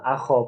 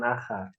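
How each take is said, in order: First: The vowel after kh sounds like o. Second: The vowel after kh sounds like a. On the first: The speaker calls it right. "akho bukan akha" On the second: The speaker calls it wrong. "bukan akha"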